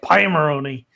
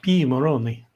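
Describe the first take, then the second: First: The first syllable sounds like 'pie'. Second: The first syllable sounds like 'pee'. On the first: This is how an American says it. "she's like Pie Moroni" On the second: This is the intended continental European pronunciation. "This is how you say it"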